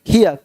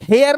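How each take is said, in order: First: The vowel sounds like 'ear'. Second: The vowel sounds like 'air'. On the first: The speaker calls it right. "हेयर नहीं हियर" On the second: The speaker calls it wrong. "हेयर नहीं"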